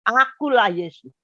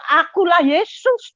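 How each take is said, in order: First: Said in the usual way. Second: Higher, louder and slow, a proclaiming Jesus; a lightly voiced, majestic Jesus. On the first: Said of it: "dia bilang". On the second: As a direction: announce who you are, slowly and high. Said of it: "Dia bilang".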